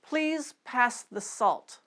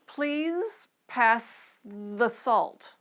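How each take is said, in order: First: The sentence is spoken at normal speed. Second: The sentence is spoken slowly. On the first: "Now let's move up to normal speed" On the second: "let's take them slowly at first"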